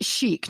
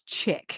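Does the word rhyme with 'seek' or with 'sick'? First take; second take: seek; sick. First: It is said like 'sheek', with a long vowel. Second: It is said like 'chick', with a short vowel. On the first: The speaker calls it right. "Chic is pronounced chic" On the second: The speaker calls it wrong. "not chick"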